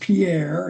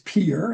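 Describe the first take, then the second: First: The name is said the way outsiders say it. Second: The name is said the way locals say it. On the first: The speaker calls it wrong. "don't pronounce it as Pierre" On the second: The speaker calls it right. "it's Pierre if you're local"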